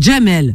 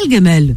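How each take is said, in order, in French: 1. Le prénom commence par un son J. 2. Le prénom commence par un G dur. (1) "Nous, les Algériens, c'est Dja" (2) "ils disent Gam"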